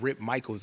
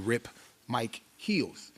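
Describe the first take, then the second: First: The surname sounds like the usual name Michaels. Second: The surname sounds like the two words Mike Heels. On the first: The speaker calls it wrong. "my name is actually not Rip Michaels" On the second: The speaker calls it right. "it's actually Rip Mike Heels"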